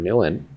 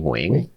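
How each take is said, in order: First: The surname is pronounced in an anglicized English way. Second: The surname is pronounced in the Vietnamese way. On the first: This version is easier for English speakers. The speaker calls it wrong. "the very anglicized slash easy to pronounce version" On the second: This version connects to the speaker's family and culture. The speaker calls it right. "how you would say my full name in Vietnamese"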